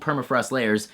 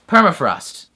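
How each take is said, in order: First: Said in the usual way. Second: "Permafrost" said loud with weight on "Perm"; louder, falling "Permafrost" set apart as its own word; stress on PERM. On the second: Shown as a demonstration. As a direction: punch the first syllable of "Permafrost" to point at "permanent". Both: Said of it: "Perm-, like, permanent".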